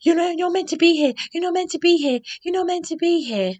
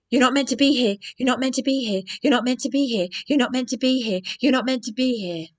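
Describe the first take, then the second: First: Much higher, louder, fast caricature; shrill mock receptionist. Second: A mildly raised, repeated mock scold; imitating the receptionist. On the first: Nikki telling her she shouldn't be there, high mocking parody. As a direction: squeak it out as a frantic receptionist. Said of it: "this Nikki is going". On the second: Receptionist Nikki repeating herself at the door, mock scold. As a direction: parrot her stuck-record telling-off. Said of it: "That is how she spoke to me".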